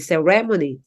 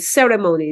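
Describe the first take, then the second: First: The stress is on the second syllable. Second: The stress is on a syllable other than the second. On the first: The speaker calls it wrong. "they would say ceremony, okay. Usually the stress in Philippine English is in the second syllable" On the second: The speaker calls it right. "Instead of saying ceremony"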